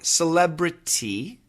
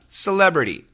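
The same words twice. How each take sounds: First: Every sound is said carefully and fully. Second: It is said in a relaxed, typical American way.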